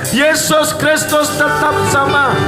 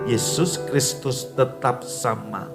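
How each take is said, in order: First: It is declared in a loud, strong voice. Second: It is murmured in a soft, quiet voice. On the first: The verse is boldly declared for others to hear. "Dengan suara keras Anda mendeklarasikannya" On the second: The verse is murmured so only you hear it. "Anda bergumam, ... Dengan suara pelan"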